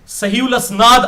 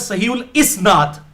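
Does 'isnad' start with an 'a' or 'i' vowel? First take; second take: a; i. First: The last word begins with an 'a' vowel. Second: The last word begins with an 'i' vowel. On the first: The speaker calls it wrong. "मैं अक्सर बोलता था" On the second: The speaker calls it right. "ये लफ्ज है सहीउल इसनाद"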